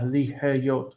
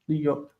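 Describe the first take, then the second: First: An h sound is pronounced before the second syllable. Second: No h sound is pronounced before the second syllable. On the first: The speaker calls it wrong. "you really don't need to pronounce it ha" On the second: The speaker calls it right. "Just li, yot"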